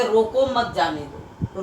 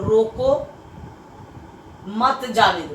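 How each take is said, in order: First: Said in the usual way. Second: रोको on its own, long pause, then मत जाने दो; pause after रोको. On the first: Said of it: "ये पूर्ण विराम है". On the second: Shown as a demonstration. Teacher showing students the comma's difference, pause after रोको. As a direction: break firmly after रोको before मत जाने दो. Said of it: "दोनों का अंतर समझिए".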